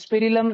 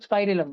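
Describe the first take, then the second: First: The first syllable has a short 'i' sound. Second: The first syllable has a long 'eye' sound. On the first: The speaker calls it wrong. "स्पिरिलम नहीं" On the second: The speaker calls it right. "स्पाइरिलम बोलते हैं"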